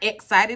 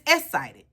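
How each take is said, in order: First: The x sound is pronounced as ks. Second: The x sound is left out entirely. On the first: The speaker calls it wrong. "Not excited" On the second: The speaker calls it right. "She doesn't do X's"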